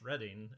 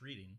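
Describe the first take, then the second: First: The first vowel is short, like 'red'. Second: The first vowel is long, like 'reed'. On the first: This names the town. "the city is pronounced Reading" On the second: This names the act of reading. "the activity is pronounced Reading"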